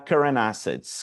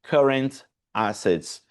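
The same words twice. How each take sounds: First: The final T links quickly into the next word. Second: The two words are said slowly and separately. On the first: "Vai virar" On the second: "a não ser que a pessoa esteja falando muito pausadamente"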